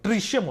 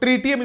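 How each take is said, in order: First: The middle consonant is an 'sh' sound. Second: The middle consonant is a 't' sound. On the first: The speaker calls it right. "ट्रीशियम होता है उसका" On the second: The speaker calls it wrong. "ट्रीटियम is a wrong pronounce"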